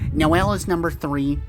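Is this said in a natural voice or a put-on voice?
put-on. It is said in an imitated character voice.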